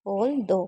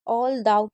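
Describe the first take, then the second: First: The last syllable ends in an 'oh' vowel. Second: The last syllable ends in an 'ow' vowel. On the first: The speaker calls it right. "इसे दो पढ़ेंगे" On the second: The speaker calls it wrong. "ऑल दाउ की जगह ऑल दो, तो इसको दाउ नहीं दो पढ़ेंगे"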